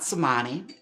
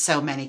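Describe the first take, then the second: First: It is run together as one word, so-MAH-nee. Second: It is said as two words, so many. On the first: The speaker calls it wrong. "her name is not Somani" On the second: The speaker calls it right. "It is So Many Kitties"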